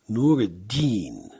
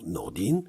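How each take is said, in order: First: The name is said fully in three syllables. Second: The name is contracted into two syllables.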